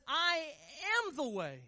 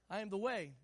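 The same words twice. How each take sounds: First: "I" high and loud, held before "am the way"; stress on I AM. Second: Said in the usual way. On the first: Shown as a demonstration. Preacher showing church the emphasis in Jesus' words, "I am" stressed. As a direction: punch "I", pause, then "am the way". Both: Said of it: "so here's the emphasis".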